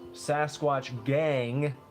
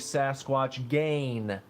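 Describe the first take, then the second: First: The word ends with a full ng sound. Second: The word ends without the g sound.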